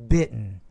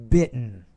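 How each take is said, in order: No difference in how they are said.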